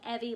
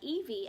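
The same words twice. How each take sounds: First: The first vowel is short, as in Chevy. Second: The first vowel is long, as in eve. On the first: The speaker calls it right. "it's like Evie like Chevy" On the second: The speaker calls it wrong. "I used to pronounce it like Evie"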